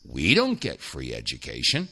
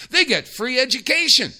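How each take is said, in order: First: "don't" dropped low and rising; low bitter stress on DON'T. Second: "They" hit high and loud, then falling; stress on THEY. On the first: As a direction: sink the voice low on "don't" in answer. Contrasting what Americans lack. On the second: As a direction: punch "They" up top to set up the contrast. Contrasting what Israel gets. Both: Real, not acted.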